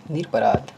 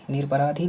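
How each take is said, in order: First: निरपराध ending cleanly on ध, with no vowel; निरपराध said firmly, closed on ध; correct form. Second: निरपराधी ending on a long ई; निरपराधी said with the final धी; wrong form. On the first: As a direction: demo the right निरपराध. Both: Shown as a demonstration. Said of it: "निरपराधी नहीं".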